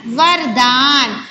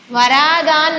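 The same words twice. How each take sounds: First: वरदान with no vowel after र, long दान; वरदान, closed वर then drawn-out दान; correct pronunciation. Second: वरा दान with a long aa after र; वरा दान, extra long vowel in the middle; wrong pronunciation. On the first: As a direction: slowly model वरदान as var-daan. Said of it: "वरा नहीं होगा". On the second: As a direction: misread it as वरा दान, stretching रा. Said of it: "नहीं है ना". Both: Shown as a demonstration.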